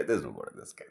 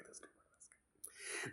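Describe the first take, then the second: First: Said in the usual way. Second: Slow whisper. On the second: Shown as a demonstration. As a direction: breathe it out slowly in a whisper. Repeats the line, then whispers it.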